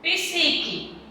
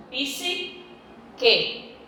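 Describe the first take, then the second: First: Said in the usual way. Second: "psique" slowly divided as PSI, pause, QUE; syllable split. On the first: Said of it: "eu não posso separar psique". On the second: Shown as a demonstration. Teacher showing P stays with S, syllable split. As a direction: keep P and S joined, then separate QUE. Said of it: "Ele fica junto".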